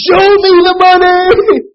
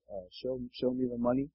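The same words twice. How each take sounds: First: Screamed far higher and louder, stretched slowly; full scream. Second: Mumbled, softer and hesitant; a shy, unwilling first try; reluctant, quiet. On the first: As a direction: scream it with everything you've got. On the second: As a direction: say it half-heartedly, holding back. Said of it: "at first he reluctantly says". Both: Retold or imitated.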